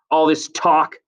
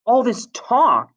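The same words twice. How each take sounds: First: Slightly raised, louder complaint; irritated complaint. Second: High, loud, slow shout; angry shout. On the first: Acted. Jack complains about Ralph, raised irritated voice. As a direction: complain forcefully, short of a shout. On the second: A narrator's reading. Ralph shouts back at Jack, high exasperated shout. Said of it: "shouted Ralph".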